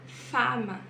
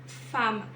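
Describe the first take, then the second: The two takes are said the same way.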